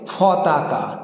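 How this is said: The word begins with an aspirated 'ph' sound.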